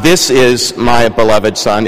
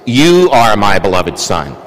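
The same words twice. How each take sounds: First: Said in the usual way. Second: "You" set apart and lower as the correction; stress on You. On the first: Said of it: "It's not". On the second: Shown as a demonstration. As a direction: give "You" the weight, slowly.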